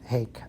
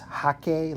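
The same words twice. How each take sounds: First: The word rhymes with bake. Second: The word sounds almost like hockey. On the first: The speaker calls it wrong. "so many people have pronounced it Hake" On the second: The speaker calls it right. "technically the correct pronunciation of Hake is Hake, like almost like hockey"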